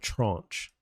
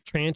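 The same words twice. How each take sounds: First: The word is said in a fancy, refined way. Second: The word is said in a plain, homely way. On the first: The speaker calls it right. "the sophisticated Ivy League pronunciation of it" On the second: The speaker calls it wrong. "the hillbilly pronunciation of it"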